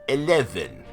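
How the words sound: It is said in a British accent.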